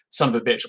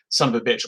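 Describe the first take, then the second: First: It is run together as one word. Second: It is run together as one word.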